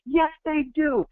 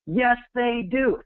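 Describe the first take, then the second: First: Very high, slow, ringing yell; megaphone shout. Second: High, slow defiant shout; screaming back. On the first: Yelling for the viewer through a megaphone, full shout. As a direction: blast it out like a megaphone. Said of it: "I'm your megaphone going". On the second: Shouting back at the viewer's naysayers, defiant yell. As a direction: shout it back against the doubters. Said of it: "I'm sitting here screaming the other direction". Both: Acted.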